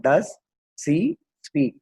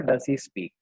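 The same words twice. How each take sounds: First: "does... she... speak", a pause after each word. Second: Said in the usual way. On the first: Shown as a demonstration. Teacher building the question for students, word by word. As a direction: break the question into three separate words. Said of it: "அப்ப எப்படி வரும்?". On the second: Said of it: "அப்படி வரணும்".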